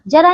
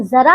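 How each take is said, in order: First: Said in the usual way. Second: जरा opening on a z, "zara"; dotted ज in जरा. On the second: Shown as a demonstration. Teacher contrasts old age with "a little", जरा said "zara". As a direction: start जरा with buzzed z, not j. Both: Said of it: "लेकिन जरा अगर बोला जाए".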